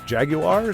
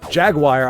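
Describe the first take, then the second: First: It is said with a British pronunciation. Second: It is said with an American pronunciation. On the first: "they pronounce it Jaguar" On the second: "sounds really freaking cool"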